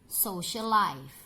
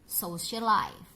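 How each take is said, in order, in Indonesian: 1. Bunyi l hanya diucapkan sekali. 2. Bunyi l hanya diucapkan sekali.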